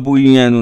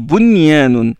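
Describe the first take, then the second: First: The n merges into the following y. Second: The n is pronounced clearly before the y. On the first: The speaker calls it wrong. "on ne dit pas bunyanun" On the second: The speaker calls it right. "on prononce le nun et on prononce le ya"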